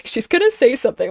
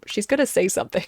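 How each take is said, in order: First: Giggling prediction; amused, laughing aside. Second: Said in the usual way. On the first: Retold or imitated. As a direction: repeat it through a laugh.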